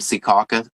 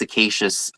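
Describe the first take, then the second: First: The name ends with a 'caw-kus' sound. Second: The name ends with a 'shus' sound. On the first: The speaker calls it right. "I had it right the first time" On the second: The speaker calls it wrong. "I think I heard it pronounced Cicacious on like a news"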